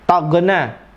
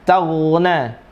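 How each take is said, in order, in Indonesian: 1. Konsonan tengahnya adalah g keras yang dipantulkan. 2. Konsonan tengahnya adalah frikatif gh yang halus. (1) "Malah yang lebih parah qalqalah lagi" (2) "Bukan tagna atau tagna"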